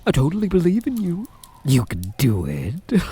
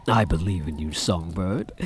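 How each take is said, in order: First: High, fast, sing-song "I totally believe in you"; sarcastic. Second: Mock sincere. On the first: Acted. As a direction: toss off "I totally believe in you" in a mocking chirp. Mocking hunter's escape hopes. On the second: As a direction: say "I believe in you" gently, as if sincere. Sincere before mocking repeat.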